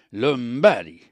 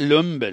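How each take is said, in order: First: The stress is on the last syllable. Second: The stress is on the first syllable. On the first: "han liksom betonar på slutet av namnet" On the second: "Inte Lumber som jag säger det"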